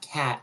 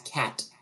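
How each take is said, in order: First: The final T is cut off, barely heard. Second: The final T is clearly and fully released. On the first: The speaker calls it wrong. "we typically just kind of like cut off the word" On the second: The speaker calls it right. "It's the T"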